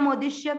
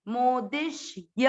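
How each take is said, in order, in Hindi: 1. अंतिम ya कटा हुआ और कमज़ोर है। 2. अंतिम ya पूरा और साफ़ बोला गया है। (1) "कई लोग इसको मोदिष्य मोदिष्य करते हैं" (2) "य पूरा बोले"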